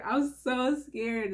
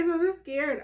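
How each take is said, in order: First: Slow, settling repeat; slow nervous repeat. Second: High, keyed-up nervous line; jittery and high-pitched. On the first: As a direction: drag it out slowly, calming down. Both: Real, not acted.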